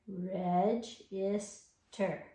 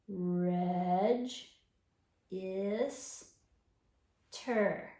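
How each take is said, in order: First: The syllables are said faster and closer together. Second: The syllables are said slowly and separately.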